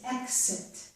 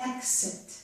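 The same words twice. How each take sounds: First: The x sounds like 'ks'. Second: The same.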